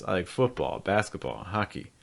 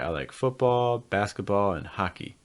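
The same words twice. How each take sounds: First: The voice falls on football and basketball. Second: The voice rises on football and basketball. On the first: "fall, fall, fall" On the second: "Do you hear the rises?"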